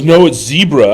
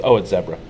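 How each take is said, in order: First: "zebra" said as ZEE-bruh, louder and higher; long-e zebra. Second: "zebra" said as ZEB-ruh; short-e zebra. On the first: Retelling the objection to the verdict, insistent "zebra" as ZEE-bruh. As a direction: insist loudly on "zebra" starting like see. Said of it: "he goes". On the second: Quoting the African woman's verdict, "zebra" as ZEB-ruh. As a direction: answer with "zebra" rhyming with Debra. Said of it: "And she goes". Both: Retold or imitated.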